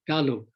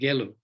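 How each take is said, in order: First: The first syllable is said as 'ga'. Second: The first syllable is said as 'ge'. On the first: It names the tradition of Ganden. The speaker calls it right. "It should be Ga, not Ge, Galug" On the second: It names a virtuous tradition. The speaker calls it wrong. "not Gelug"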